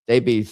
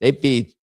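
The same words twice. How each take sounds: The two takes are said the same way.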